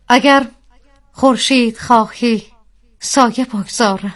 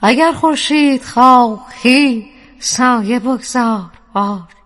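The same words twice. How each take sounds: First: The voice has some added reverb. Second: The voice has much stronger added reverb. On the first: "یه ریورب بدید من شعر رو بخونم" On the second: "خیلی بیشتر بدین که بیشتر شعرم بیاد"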